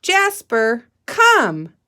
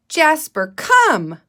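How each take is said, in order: First: Calling Jasper, come, loud; calling a pet. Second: Higher, louder call to a pet; teacher shows how to call a cat so it comes; calling your cat. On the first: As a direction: call the dog over. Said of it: "Can you say that with me". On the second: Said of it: "sounding like you're calling your cat". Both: Shown as a demonstration.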